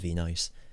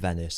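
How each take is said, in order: First: The word ends with the sound 'nice'. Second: The word ends in a short 'niss' sound.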